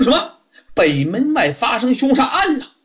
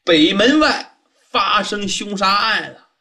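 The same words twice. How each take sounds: First: Startled question, pitched higher; jolted by the news and echoing it back; surprised. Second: Said in the usual way. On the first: Acted. Di Renjie echoing the waiter's murder news, startled. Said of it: "当时就是一愣啊". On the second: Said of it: "茶博士说".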